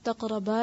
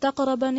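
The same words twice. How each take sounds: First: The final vowel is drawn out long. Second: The final vowel is cut short. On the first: The speaker calls it right. "अलिफ आगे" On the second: The speaker calls it wrong. "तकरबा नहीं लिखा हुआ"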